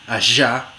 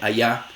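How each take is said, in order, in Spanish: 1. Es una fricativa sonora, como 'zh'. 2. Es una aproximante suave, parecida a una vocal. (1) "fricativa postalveolar sonora" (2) "suena casi como una vocal"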